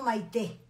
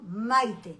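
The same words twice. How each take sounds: First: The stress falls on the last syllable. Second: The stress falls on the first syllable. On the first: The speaker calls it wrong. "yo no me llamo Maite" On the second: The speaker calls it right. "sin acento, por favor"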